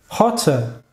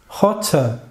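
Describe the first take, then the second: Both takes have the same delivery.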